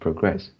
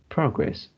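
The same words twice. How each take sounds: First: The stress is on the second syllable. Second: The stress is on the first syllable. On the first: The speaker calls it wrong. "instead of" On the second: The speaker calls it right. "the stress is at the first syllable"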